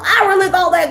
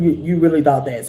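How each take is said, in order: First: It is said in a believer's pleading voice. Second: It is said in an imagined voice of God.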